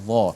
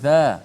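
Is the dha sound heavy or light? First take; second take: heavy; light. First: The consonant is pronounced thick and heavy. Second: The consonant is pronounced thin and light. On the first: The speaker calls it right. "kita sebut dha" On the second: The speaker calls it wrong. "Kita tak sebut dha"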